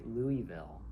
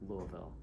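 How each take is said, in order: First: The word is said with all syllables fully sounded. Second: The word is partly reduced, between the other two. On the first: This is how outsiders say it. "people outside of Louisville say" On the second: This is a mix of local and outside usage. "I sort of am somewhere in the middle"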